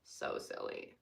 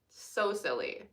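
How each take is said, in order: First: So silly breathed as a soft unvoiced whisper; whispered So silly, almost to herself. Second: Said in the usual way. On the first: Real, not acted. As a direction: repeat So silly under your breath.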